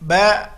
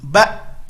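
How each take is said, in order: First: The final sound trails on and flows out. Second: The final sound stops abruptly and is cut off. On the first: The speaker calls it wrong. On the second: The speaker calls it right. "habis langsung"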